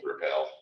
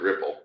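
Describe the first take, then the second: First: The name is said like the word repel. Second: The name is said like the word ripple. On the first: This is how a newcomer might read it. "I thought I would have gone with repel" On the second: This is how its creators say it. "the people that created it pronounced it Ripple"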